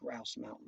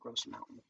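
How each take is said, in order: First: The first word rhymes with 'house'. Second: The first word rhymes with 'dose'. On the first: The speaker calls it right. "That's actually Grouse Mountain" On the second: The speaker calls it wrong. "not Gross Mountain"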